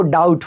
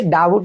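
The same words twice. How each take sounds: First: "डाउट" with no b sound; correct reading, silent b. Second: "डाबुट" with an audible b; wrong reading, b sounded. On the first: Teacher giving the correction, "डाउट" with the b silent. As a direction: say "डाउट" as daut, gliding straight to t. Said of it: "वो डाउट होता है". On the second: Teacher correcting an old mistake, "डाबुट" misread with a b. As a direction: say "डाबुट" as da-but, voicing the b. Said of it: "डाबुट नहीं होता". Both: Shown as a demonstration.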